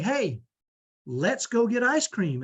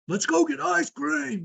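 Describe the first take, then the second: First: It is said in a kind, gentle tone. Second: It is said as a blunt command.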